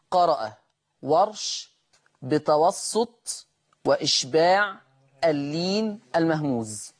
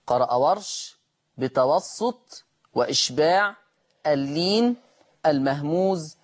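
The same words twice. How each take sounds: The two takes are said the same way.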